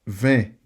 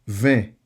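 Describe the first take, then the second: No difference in how they are said.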